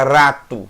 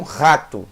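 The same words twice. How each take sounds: First: "rato" with a light tongue-tap R at the start; tapped R. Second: "rato" with a throaty R at the start; guttural R. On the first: Teacher shows students the rare way, tapped R in "rato". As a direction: say "rato" with a tapped R, not from the throat. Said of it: "Dificilmente você fala rato". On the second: Teacher shows how people normally say it, guttural R in "rato". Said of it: "Normalmente as pessoas falam rato". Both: Shown as a demonstration.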